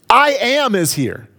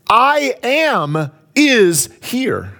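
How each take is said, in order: First: Said in the usual way. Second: Slow emphasis. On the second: Shown as a demonstration.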